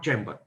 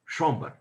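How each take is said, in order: First: The word is said with an English pronunciation. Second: The word is said with a French pronunciation. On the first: "not chamber" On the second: "they pronounce as chamber"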